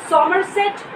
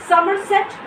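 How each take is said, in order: Both takes have the same delivery.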